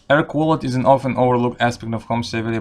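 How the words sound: It is read with a Russian accent. "I'll read it in Russian accent"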